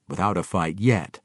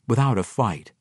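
First: Qualify it, leaning on the final "yet"; stress on yet. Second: Said in the usual way. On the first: A narrator's reading. Narrator correcting the claim of no fight, "yet" stressed.

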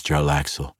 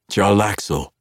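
First: Said in the usual way. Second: Loud and high; sharp call. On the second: Acted. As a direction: snap the name out. Zaknafein snaps name.

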